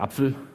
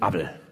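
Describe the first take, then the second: First: The middle consonant is a pf sound. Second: The middle consonant is a b sound. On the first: "der Apfel" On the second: "ist ein Abel"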